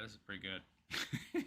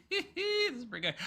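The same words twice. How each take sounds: First: Said in the usual way. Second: Breaking into real laughter, much higher; laughing. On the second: Real, not acted. Streamer cracks up at the clip, laughing. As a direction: laugh it out, high and giddy.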